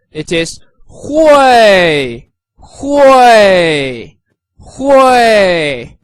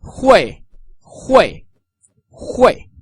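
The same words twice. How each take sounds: First: Slow, loud, falling hui for demonstration; fourth tone hui. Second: Hui snapped quickly downward; short falling hui; quick everyday hui with a sharp fall; short fourth tone hui. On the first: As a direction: stretch hui into a strong fourth-tone fall. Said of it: "With the fourth tone". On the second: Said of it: "With a shorter version". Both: Shown as a demonstration.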